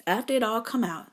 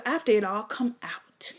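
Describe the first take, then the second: First: Said in the usual way. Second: Whisper. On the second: Real, not acted. Comedian whispering it to the crowd, then repeats it.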